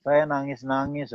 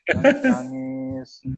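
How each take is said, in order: First: Said in the usual way. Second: High, drawn-out imitation wail; mock crying. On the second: Preacher re-enacting his first days in Semarang, mock wailing. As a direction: stretch it out like a hammed-up sob.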